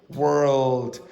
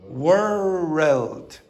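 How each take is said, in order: First: The word is said as one syllable. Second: The word is said as two syllables. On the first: The speaker calls it right. "In general, this word has one syllable. So you'll say world" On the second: The speaker calls it wrong. "Scottish people make two syllables. So they'll add in an extra syllable"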